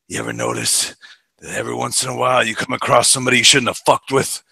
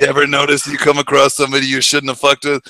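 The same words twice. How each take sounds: First: Clint Eastwood growl. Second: Lightly voiced Eastwood; understated menace; a hint of Eastwood; Eastwood imitation. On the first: Retold or imitated. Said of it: "he has this one line". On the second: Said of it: "the way he delivers it".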